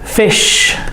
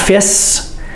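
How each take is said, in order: First: The word ends with an sh sound. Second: The word ends with a plain s sound. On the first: The speaker calls it right. "We need to hear the S. S H" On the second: The speaker calls it wrong. "It's not fis"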